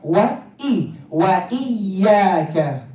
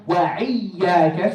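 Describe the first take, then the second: First: "وإياك" with a clean catch before "iyyaka"; clean hamza. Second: "وإياك" with a throaty ayn after "wa"; hamza as ayn. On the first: Teacher correcting students, "وإياك" with hamza, no ayn. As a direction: break cleanly after "wa" in "وإياك". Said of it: "we don't wanna say also". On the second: Teacher showing a mistake to avoid, "وإياك" with ayn for hamza. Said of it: "turn the hamza into ayn". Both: Shown as a demonstration.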